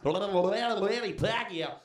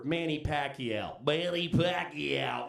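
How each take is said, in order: First: Very slow, rolled "Manny Pacquiao"; showy name read. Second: Slow, drawn out "Manny Pacquiao"; savoring the name. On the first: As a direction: roll out "Manny Pacquiao" like a ring announcer. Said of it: "just to prove they can do it". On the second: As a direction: stretch out "Manny Pacquiao" with relish. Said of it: "their favorite one of all to pronounce". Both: Retold or imitated.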